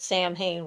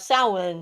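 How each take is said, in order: First: It is said like 'sam-hain', with every letter voiced. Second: It is said like 'sow-en', with no 'm' or 'h'. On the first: The speaker calls it wrong. "pronounces it Sam Hain, which is how it's spelled" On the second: The speaker calls it right. "Samhain is the correct answer. S O W E N"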